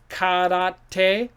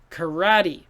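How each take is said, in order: First: It is said with a Japanese pronunciation. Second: It is said with an American English pronunciation. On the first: This is how the original language says it. "this is from Japanese, so it should be karate" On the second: This is how Americans adapt and say it. "we take the word and change it into American style. We say karate"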